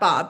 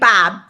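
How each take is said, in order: First: The name is said in a plain, neutral accent. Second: The name is said in a strong Midwestern accent. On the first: The speaker calls it wrong. "not Bob" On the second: The speaker calls it right. "with the most Midwestern statement"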